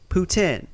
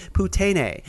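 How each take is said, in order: First: Said in the usual way. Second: "poutine" said poo-TAY-nay, three syllables; mock mispronunciation. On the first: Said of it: "nobody would call it that". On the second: Shown as a demonstration. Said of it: "as some people would call it".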